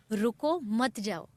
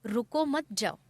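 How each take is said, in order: First: रुको set apart, a clear break before मत जाओ; pause after रुको. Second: रुको मत joined as one phrase, जाओ set apart; pause after मत. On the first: Speaker quoting what was said to show a misunderstanding, pause after रुको. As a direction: stop on रुको, then मत जाओ joined as one phrase. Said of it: "कि हमने कहा". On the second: Speaker showing how the listener misheard it, pause after मत. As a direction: run रुको into मत, break, then say जाओ. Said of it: "और उन्होंने सुना". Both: Shown as a demonstration.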